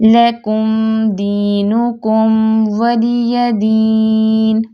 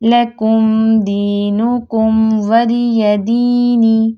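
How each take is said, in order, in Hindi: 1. अंतिम शब्द एक सादे व्यंजन पर रुकता है। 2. अंतिम शब्द स्वर पर समाप्त होता है।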